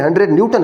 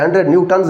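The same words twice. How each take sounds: First: Said in the usual way. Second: "न्यूटन्स" with a sounded final s; "न्यूटन्स" said as a plural, ending in n plus s. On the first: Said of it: "कहना है". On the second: Shown as a demonstration. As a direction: add an s sound to the end of "न्यूटन्स". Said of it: "इसको आपने नहीं कहना".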